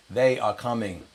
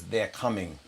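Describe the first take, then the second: First: "They are coming", each word given weight; emphatic repeat. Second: Said in the usual way. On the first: Retold or imitated. First mate repeats his warning, THEY ARE stressed.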